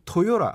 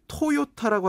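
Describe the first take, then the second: First: The last consonant is a soft, flapped sound. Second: The last consonant is a hard, strong t. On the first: The speaker calls it right. "토요라 약간 이런 식으로 발음이 됩니다" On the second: The speaker calls it wrong. "토요타라고 하지 않고"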